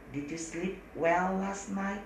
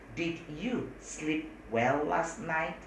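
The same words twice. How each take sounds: First: Slow careful English; slow model sentence. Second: Even slower, careful English; slower model sentence. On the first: Teacher slowly models the question. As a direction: say it slowly for students. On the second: Teacher repeats the question even slower. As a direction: stretch each word for students. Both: Shown as a demonstration. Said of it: "apakah pakai did".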